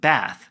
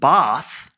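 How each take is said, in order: First: It is said in an American accent. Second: It is said in a British accent.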